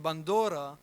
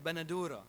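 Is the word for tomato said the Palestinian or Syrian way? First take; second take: Palestinian; Syrian. First: It is said with a Palestinian pronunciation. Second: It is said with a Syrian pronunciation. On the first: The speaker comes from Palestine. "the Palestinian way of saying it" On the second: The speaker comes from Syria. "the Syrian way of saying it"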